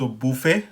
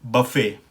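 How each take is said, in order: First: बुफे as boo-FAY, rounded oo; French pronunciation. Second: बफे as buh-FAY, short uh first; American pronunciation. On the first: Teacher shows the version used in Pakistan, French pronunciation. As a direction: round the first vowel of बुफे. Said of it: "जो हम कहते हैं French version". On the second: Teacher shows learners the American buffet, American pronunciation. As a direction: open the first vowel of बफे to uh. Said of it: "American pronunciation में ये है". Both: Shown as a demonstration.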